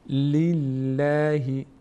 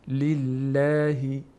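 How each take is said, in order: First: The l sound is light and thin. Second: The l sound is light and thin.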